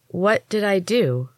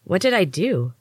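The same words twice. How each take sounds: First: "What did I do?" drawn out slow, each word apart; slowly. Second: Said in the usual way. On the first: A narrator's reading. Hesh asks the healers slowly what happened, slow and wary. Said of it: "I asked slowly".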